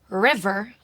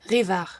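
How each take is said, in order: First: It is said with plain English R sounds. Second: It is said with soft French throat R sounds.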